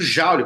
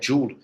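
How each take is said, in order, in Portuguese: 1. O nome é dito com pronúncia estilo português. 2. O nome é dito com pronúncia estilo inglês. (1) "como vocês falam" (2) "A pronúncia correta é"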